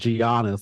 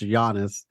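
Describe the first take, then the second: First: The name is sounded out letter by letter. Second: The name is said the native way. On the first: The speaker calls it wrong. "I was pronouncing it like it's spelled" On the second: The speaker calls it right. "he's just pronounced Giannis"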